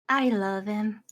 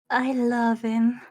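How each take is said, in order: First: It is said in a plain voice. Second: It is said in a more sensual voice.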